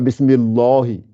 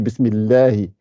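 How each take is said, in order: First: The L in Allah sounds thick and heavy. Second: The L in Allah sounds thin and light. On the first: The speaker calls it wrong. "On ne dit pas Bismillahi" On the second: The speaker calls it right. "quand c'est kasra, on ne gonfle pas. C'est pour ça qu'on dit Bismillahi"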